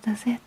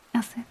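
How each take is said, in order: Both takes have the same delivery.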